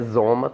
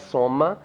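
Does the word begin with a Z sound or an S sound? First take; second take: Z sound; S sound. First: The word begins with a buzzing Z sound. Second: The word begins with a hissing S sound. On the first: The speaker calls it wrong. "a princípio, a gente pensaria que é Zoma" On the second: The speaker calls it right. "como radical começa com soma, é soma"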